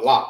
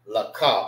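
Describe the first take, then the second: First: The letters are joined into one syllable. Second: Each letter is said as its own syllable. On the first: "you need to say it together" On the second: "you pronounce it by itself"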